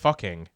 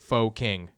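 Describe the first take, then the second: First: The first word sounds like 'fuh'. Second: The first word sounds like 'foe'. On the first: The speaker calls it right. "but this would be uh, the fucking" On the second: The speaker calls it wrong. "we'll call it faux, ... but that's not how it's pronounced"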